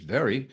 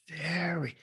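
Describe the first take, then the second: First: Said in the usual way. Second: VERY drawn out, soft and higher; duration on VERY. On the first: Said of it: "just very". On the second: Shown as a demonstration. Teacher demonstrating duration, VERY drawn out. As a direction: stretch out "very". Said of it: "Duration, volume".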